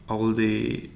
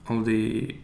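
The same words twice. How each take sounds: The two takes are said the same way.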